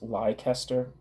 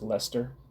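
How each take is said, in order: First: The name is sounded out the way it is spelled. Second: The name is said shortly, as two syllables. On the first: The speaker calls it wrong. "I always thought it was Leicester" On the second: The speaker calls it right. "but it's just Lester"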